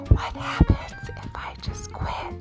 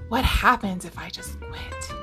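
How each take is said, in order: First: It is said in a whisper. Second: It is said in a normal voice.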